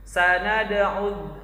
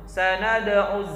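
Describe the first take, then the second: Both takes have the same delivery.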